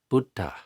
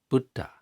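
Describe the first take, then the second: No difference in how they are said.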